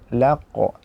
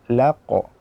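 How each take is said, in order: The two takes are said the same way.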